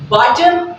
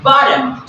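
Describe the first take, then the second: First: BOTTOM with a clear hard T; slow BOTTOM, T fully sounded; double T sounded. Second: Slow BOTTOM, American flap; flapped T. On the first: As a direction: say BOTTOM with a crisp T. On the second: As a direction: say BOTTOM like "boddom". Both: Shown as a demonstration. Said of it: "place the double T equal".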